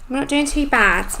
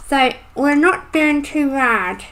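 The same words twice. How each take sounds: First: Said in the usual way. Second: Talking around a pencil in mouth; mumbled with a pencil between teeth. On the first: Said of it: "Sorry, I've got a pencil". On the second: Real, not acted. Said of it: "I've got a pencil, pencil in my mouth then".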